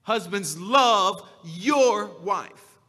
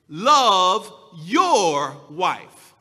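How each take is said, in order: First: Drawn-out "love YOUR wife" with the weight on "your"; stress on your. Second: "Love your wife" slow, with "your" leaned on hard and loud; emphatic, drawn-out "Love YOUR wife"; stress on your. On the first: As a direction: slowly press on "your". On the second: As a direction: stretch it out and press down on "your". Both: Shown as a demonstration. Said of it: "I'm going to be putting the emphasis on your".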